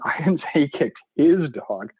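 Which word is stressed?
his. The stress falls on the word his. He kicked a dog that was not his own. "he's totally a dog kicker. It just wasn't his own dog"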